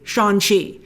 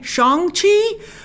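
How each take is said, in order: First: The g at the end of Shang is dropped. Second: The g at the end of Shang is heard. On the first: "the G is so silent that it's essentially Shang-Chi" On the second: "He might have been saying Shang-Chi"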